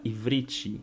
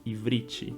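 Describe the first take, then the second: Both takes have the same delivery.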